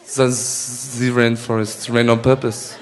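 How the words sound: It is said in a French accent.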